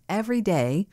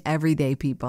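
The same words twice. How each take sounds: First: "every day" stretched as two separate words; corrective emphasis. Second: "everyday people" said quickly as one unit; run together as one phrase. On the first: Host correcting herself on what she meant, "every day" emphasized as two words. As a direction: lift and lengthen "every day", then break after it. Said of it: "I meant every day". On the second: Host clarifying a misreading, "everyday people" quickly run together. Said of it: "that didn't sound right". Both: Shown as a demonstration.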